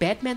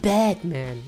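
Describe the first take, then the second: First: It is said as the ordinary name Batman. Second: It is said like the English words 'bad man'. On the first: It is just the hero's name. "für mich war er nicht Batman" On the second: He is an arrogant, bad man. "Ich fand ihn so arrogant und bad"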